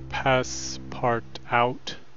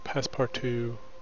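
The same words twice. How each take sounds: First: The final T sound is pronounced. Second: The final T sound is silent. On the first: The speaker calls it wrong. "I was pronouncing it Passepartout, not realizing the last T is silent" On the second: The speaker calls it right. "So it's Passepartout"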